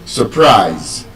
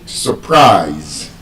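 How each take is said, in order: First: The stress is on the second syllable. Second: The stress is on the second syllable.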